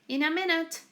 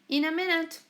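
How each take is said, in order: The two takes are said the same way.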